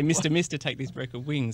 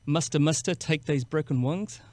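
First: The first vowel is a plain 'mister' vowel. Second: The first vowel sounds like 'muster', New Zealand style. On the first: "I was trying to say" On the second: "it's like butter"

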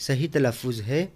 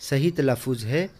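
Both takes have the same delivery.

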